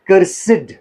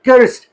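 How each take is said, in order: First: The word is said as two syllables. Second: The word is said as one syllable. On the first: Something is unpleasant. "जब unpleasant के meaning में ये use होता है it is pronounced as कर्सिड" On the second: Someone is under a curse. "एक ही syllable"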